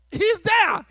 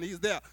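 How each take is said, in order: First: Loud, high He's there; He's there, bright and loud; emphatic. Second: Soft, low He's there; He's there, hushed and low; quiet. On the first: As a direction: proclaim it with energy. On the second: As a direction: drop it to a murmur. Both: Shown as a demonstration.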